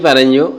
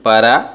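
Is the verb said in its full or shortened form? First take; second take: full; shortened. First: The verb is said in its full, longer form. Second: The verb is said in a short, reduced form. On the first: "এই পারঞ্জো কথাটাকে" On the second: "short করেছি পারা বলে থাকি"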